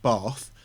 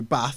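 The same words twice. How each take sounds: First: It is said in a southern English accent. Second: It is said in a northern English accent. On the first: The speaker sounds posh. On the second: The speaker sounds like the local children.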